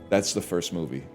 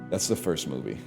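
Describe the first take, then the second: Both takes have the same delivery.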